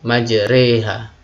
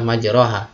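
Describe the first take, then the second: First: The vowel after r is tilted toward e. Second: The vowel after r is an open a. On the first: The speaker calls it right. "harus dimiringkan, yaitu memiringkan fathah kepada kasroh ya, sehingga uh, berbunyi majreha" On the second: The speaker calls it wrong. "kalau dibaca secara penulisannya, secara lafadz ini adalah majroha"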